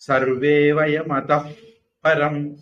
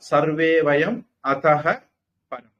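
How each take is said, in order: First: The p is breathed through lips that never touch. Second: An h sound, then p with lips closed. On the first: "உதடு ஒட்டாம சொல்லணும்" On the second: "விசர்க்கம் சொல்லி சொல்றதா இருந்தா"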